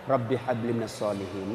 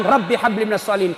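First: Put-on soft murmured prayer into a child's ear; whispering in ear. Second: Said in the usual way. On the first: Father whispering prayer into sleeping child's ear, soft. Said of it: "bisik-bisik telinganya".

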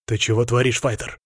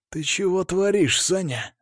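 First: Understated strict referee's reprimand; mildly stern, controlled telling-off; feigned sternness. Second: Higher-pitched tense reproach, not shouted; restrained angry hiss at a fighter; aggressive hiss. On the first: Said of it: "изображая строгость". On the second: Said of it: "агрессивно зашипел Сергей". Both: A narrator's reading.

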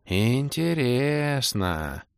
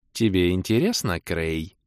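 First: Very slow, stretched-out musing; Орбит, thoughtful drawl. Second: Understated, threatening purr; Кэлен, menacing purr. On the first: Elf muses at the demoness, drawling thoughtfully. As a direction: draw every vowel out, high and pondering. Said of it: "задумчиво протянул Орбит". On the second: Кэлен questions the gnome, purring menacingly. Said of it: "грозно промурлыкала Кэлен". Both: A narrator's reading.

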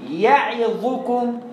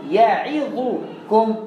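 Both takes have the same delivery.

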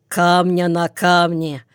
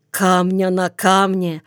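First: Understated grim confirmation; gloomy confirmation. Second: Understated fearful questioning; frightened question. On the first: First man confirming the rumour to his frightened neighbour, mildly gloomy. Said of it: "мрачно подтвердит первый". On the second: Neighbour on the bench hears the rumour, mildly frightened. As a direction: ask it with a touch of fright. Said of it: "испугается Залман или Пиня". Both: A narrator's reading.

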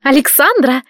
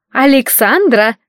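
First: Shrill call. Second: A hint of an impatient mother calling from the next room. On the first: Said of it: "Крикливый голос ворвался в сознание". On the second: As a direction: call out, drawn out and impatient. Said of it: "раздался нетерпеливый голос маман". (мать из спальни зовёт дочь, нетерпеливо) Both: A narrator's reading.

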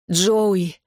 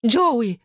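First: Mildly strained call of the name; hoarse croak. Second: High, pleading call of the name; mother's cry. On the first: Injured sister calls her brother, mildly strained croak. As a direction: call out as if short of air. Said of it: "прохрипела я, хватаясь за грудь". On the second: Mother calls to her fighting son, high cry. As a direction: cry out with pitch raised. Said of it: "закричала мама". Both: A narrator's reading.

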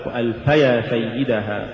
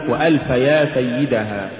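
First: وألف يا run together as one word, وألفيا; correctly joined word. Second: وألفيا broken in two as وألف يا; wrongly split word. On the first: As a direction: glue يا onto وألف with no break. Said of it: "والصواب". (وصل «وألف يا» كلمة واحدة) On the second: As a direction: separate يا from وألف as if calling someone. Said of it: "تقرأ لحنا". (فصل «يا» عن «وألف») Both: Shown as a demonstration.

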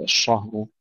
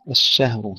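First: الشهر thickened, with dark back a; heavy ش and ه. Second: الشهر with thin front vowel, ash-shehr; light ش and ه. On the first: Teacher showing the mistake, thickened الشهر. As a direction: make الشهر heavy, ash-shahr with a dark vowel. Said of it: "لا نقول". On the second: Teacher modelling the right way, thin الشهر. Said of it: "ترقيق الشين والهاء". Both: Shown as a demonstration.

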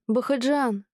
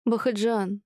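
First: Shouted name, clearly higher, falling; desperate call. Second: Shouted name, higher; calling after husband. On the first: (отчаянный крик вслед мужу) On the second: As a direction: call him back as he storms out. (зовёт мужа вслед, громко) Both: A narrator's reading. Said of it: "кричала вслед мужу".

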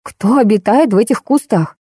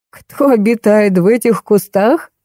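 First: Mildly alarmed question; frightened. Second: Slow, drawn-out mock question; sobbing with mirth. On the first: Narrator asks about the beast in the bushes, mildly scared. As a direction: ask with understated fright, at a normal pace. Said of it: "окончательно испугалась я". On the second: Colonel repeats the question through suppressed laughter, slow and sobbing. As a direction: stretch it as if choking back laughter. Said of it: "всхлипнул Александр Михайлович". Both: A narrator's reading.

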